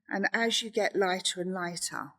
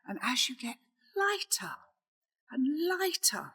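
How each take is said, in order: First: It is said in a plain, flat way. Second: It is said in a lively, expressive way. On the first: The speaker calls it wrong. "instead of saying" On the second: The speaker calls it right. "you might want to enhance it by going"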